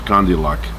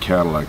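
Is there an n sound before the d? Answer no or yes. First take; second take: yes; no. First: An n sound comes before the d. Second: No n sound comes before the d. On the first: This is how the family at home said it. "as they say in my house" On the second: This is how the family at home never said it. "They never said Cadillac"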